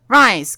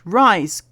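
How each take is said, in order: First: It is read in a put-on character voice. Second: It is read in a plain, normal voice.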